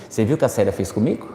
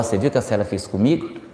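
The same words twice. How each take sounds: First: Softer, fast, hushed gossip; conspiratorial quick murmur to a coworker; gossiping aside. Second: Softer, fast, hushed gossip; conspiratorial quick murmur behind her back; gossiping aside. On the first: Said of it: "eu já vou dizer assim". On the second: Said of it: "Aí depois eu vou lá". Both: Retold or imitated. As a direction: lean in and spill it quickly, softly.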